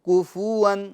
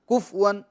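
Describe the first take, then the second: First: The f is said with a vowel after it. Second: The f is said with no vowel after it. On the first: The speaker calls it right. "फा की हरकत को भी जाहिर करना है" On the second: The speaker calls it wrong. "फा साकिन नहीं करना है"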